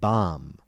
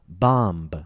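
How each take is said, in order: First: The word ends on M with no B sound. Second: The word ends with an audible B release. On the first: The speaker calls it right. "the B is usually silent" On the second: The speaker calls it wrong. "Notice that I did not say comb or bomb"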